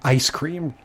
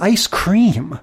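First: The emphasis falls in the modern place. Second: The emphasis falls in the old-fashioned place. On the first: "somewhere we decided to start calling it ice cream" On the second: "In the old-timey things, they always go like"

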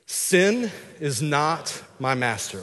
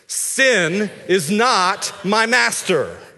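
First: It is said in a normal speaking voice. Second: It is said loudly and with strong energy. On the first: "we're just gonna say" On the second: "with some gusto"

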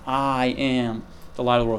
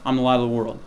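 First: The words "I am" are strongly emphasized. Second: The words "I'm" are said plainly, unstressed.

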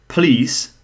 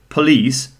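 No difference in how they are said.

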